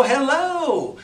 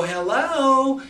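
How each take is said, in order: First: High, loud drawled "Hello" falling at the end. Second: High, loud drawled "Hello" with a long vowel. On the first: Coach shows mirroring the client's drawl back, drawled. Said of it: "it's okay to go". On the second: Coach shows a client's drawl, loud and high. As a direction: stretch "Hello" out like a slow drawler. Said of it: "If they got a little drawl in their voice". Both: Shown as a demonstration.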